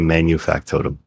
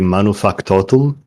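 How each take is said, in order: First: The 'nu' is said with a 'y' sound. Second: The 'nu' is said without a 'y' sound. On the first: This is how most English speakers say it. "most English speakers will say manufactotum" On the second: This is the original Latin pronunciation. "It's supposed to be manufactotum"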